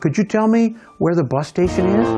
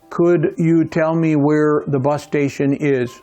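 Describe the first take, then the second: First: It sounds warmer and more polite. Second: It sounds plain and not very polite.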